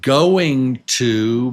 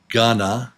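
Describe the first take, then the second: First: Both words are said fully and separately. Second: The words are reduced into one short word.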